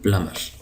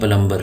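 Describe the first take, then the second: First: No b sound is heard after the m. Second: A b sound is heard after the m. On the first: The speaker calls it right. "बी silent है" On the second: The speaker calls it wrong. "ये लफ्ज़ गलत है"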